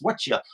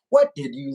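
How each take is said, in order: First: The words blend into one reduced word. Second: Each word is pronounced separately and fully. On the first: "It's "Whatcha" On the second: "So it's not"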